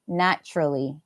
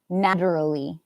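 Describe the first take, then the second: First: The consonant after 'na' sounds like a T. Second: The consonant after 'na' sounds like a D. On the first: The speaker calls it right. "This one here must be a T sound" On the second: The speaker calls it wrong. "I would never say naturally"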